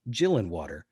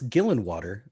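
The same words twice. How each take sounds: First: The name begins with a soft G sound. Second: The name begins with a hard G sound. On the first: The speaker calls it wrong. "not like Gillenwater" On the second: The speaker calls it right. "pronounced with a hard G"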